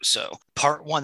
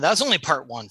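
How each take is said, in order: First: Said in the usual way. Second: "only" leaned on with a falling tune; that's "only" part one, with weight on "only"; stress on only. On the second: Shown as a demonstration. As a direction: hit the word "only" to tease what's coming.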